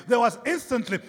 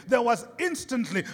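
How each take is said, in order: Both takes have the same delivery.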